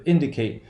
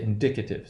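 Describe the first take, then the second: First: Indicate with the first syllable stressed. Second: Indicative as in-DIC-uh-tive; stress on DIC in indicative. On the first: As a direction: say IN-di-cate. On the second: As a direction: shift the accent in indicative to DIC. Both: Shown as a demonstration. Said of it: "there's a shift".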